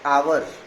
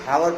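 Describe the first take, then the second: First: The word begins with a vowel sound. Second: The word begins with an h sound. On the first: The speaker calls it right. "But if you pronounce it as आवर" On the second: The speaker calls it wrong. "बहुत बहुत से लोग इसे हावर पढ़े"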